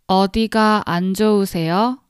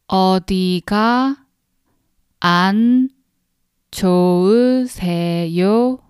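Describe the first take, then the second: First: The sentence is spoken at a fast pace. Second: The sentence is spoken at a slow pace. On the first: "Now we're gonna speak faster" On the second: "We're gonna speak three times slowly"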